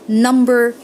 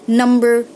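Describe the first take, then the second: The two takes are said the same way.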